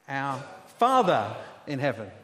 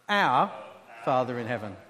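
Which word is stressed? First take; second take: Father; Our. First: The stress is on the word Father. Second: The stress is on the word our.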